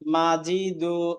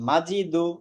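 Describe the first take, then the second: First: The vowels are stretched out slowly. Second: The vowels are said short and quick. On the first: The speaker calls it wrong. "এভাবে বলা যাবে না। এভাবে বললে মাজিদু টান হয়ে গেল" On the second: The speaker calls it right. "দু বলেও টান দেওয়া যাবে না"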